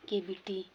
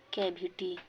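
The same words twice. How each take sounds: First: "केविटी" with a closed e; correct pronunciation. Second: "कैविटी" with an open ai vowel; wrong open vowel in "कैविटी"; wrong pronunciation. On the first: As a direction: say "केविटी" as kay-biti. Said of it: "इसका सही उच्चारण है केविटी". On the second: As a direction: say "कैविटी" as kai-viti. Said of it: "गलत है". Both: Shown as a demonstration.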